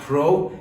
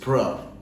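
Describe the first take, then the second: First: The first syllable has a full vowel sound. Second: The first syllable has almost no vowel sound. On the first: The speaker calls it wrong. "it's not pro" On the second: The speaker calls it right. "it is pr"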